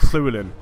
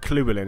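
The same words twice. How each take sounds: First: The name starts with a hissed, spat-out L sound. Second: The name starts with a plain L sound. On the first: The speaker calls it right. "It's like you're saying L, but you're spitting it out" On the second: The speaker calls it wrong. "it's not actually Llewellyn"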